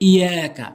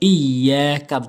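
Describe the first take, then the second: First: The y sound is short and single. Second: The y sound is held and doubled. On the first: The speaker calls it wrong. "তাসদীদটি উচ্চারণ করেই না" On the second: The speaker calls it right. "বলতে হবে"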